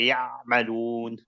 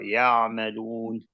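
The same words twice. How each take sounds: First: The Ayn is overstressed and the air cuts off. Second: The Ayn is soft and the air keeps flowing. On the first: The speaker calls it wrong. "you don't say ya madoon" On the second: The speaker calls it right. "you just want to let it flow"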